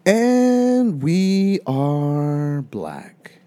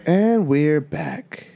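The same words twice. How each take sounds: First: "black" voor "back" uitgesproken, met een l; flubbed return. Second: Slow, drawn-out host voice; "And we're back", announced slowly; radio host intro. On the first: Real, not acted. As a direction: slip of the tongue "black". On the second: Acted. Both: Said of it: "Wait, are we back?".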